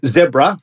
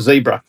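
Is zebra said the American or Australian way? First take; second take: Australian; American. First: Zebra is said the Australian way. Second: Zebra is said the American way.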